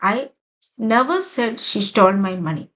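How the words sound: The stress is on the word never. It was not said even once. "ഇവിടെ നെവറിന് ഞാൻ stress കൊടുത്തിരിക്കുകയാണ്"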